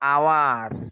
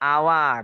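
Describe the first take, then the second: First: The word begins directly with a vowel sound. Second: The same.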